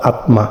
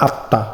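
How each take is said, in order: First: আত্মা said as "atma", ম sounded; আত্মা read letter by letter as at-ma, the form to avoid; wrong pronunciation. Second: আত্মা said as "atta", double t, no ম sound; আত্মা spoken with a long doubled t, ম silent; correct pronunciation. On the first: Teacher warns students of the wrong form: আত্মা as atma. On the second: Teacher tells students the right way: আত্মা as atta. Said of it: "not আত্মা". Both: Shown as a demonstration.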